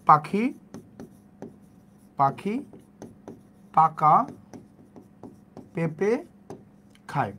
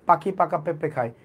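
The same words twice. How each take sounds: First: Slow word by word. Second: Said in the usual way. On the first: Shown as a demonstration. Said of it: "আমরা কি বলতাম যে". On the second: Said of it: "আমরা বলতাম যে পাখি পাকা পেঁপে খায়".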